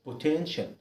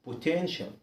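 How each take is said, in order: No difference in how they are said.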